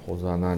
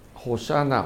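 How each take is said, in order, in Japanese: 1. 真ん中の子音は 'z' の音です。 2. 真ん中の子音は 'sh' の音です。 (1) "日本語にするとちょっとホザナになってしまう" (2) "ホシャナというのは正しい発音ですね"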